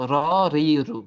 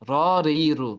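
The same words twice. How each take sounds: First: The first vowel sounds rounded, like o. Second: The same.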